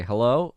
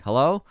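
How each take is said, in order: First: Fake phone hello. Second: Higher, louder, rising Hello?; mock baffled hello. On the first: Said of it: "you say". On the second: Dodging the bill collector, a loud baffled Hello?. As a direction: play deaf with a puzzled Hello?. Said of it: "you just say". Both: Shown as a demonstration.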